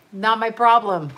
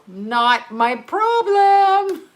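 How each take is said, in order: First: Said in the usual way. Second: Slow, high, drawn-out sing-song motto; mock motto voice. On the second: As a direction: stretch it out like a silly slogan. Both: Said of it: "That's my motto".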